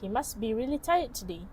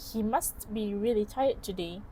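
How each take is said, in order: First: The t sound in must is dropped. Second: The t sound in must is pronounced. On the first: "the speaker pronounces it as" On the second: "instead of pronouncing it as"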